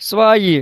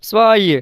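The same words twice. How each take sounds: No difference in how they are said.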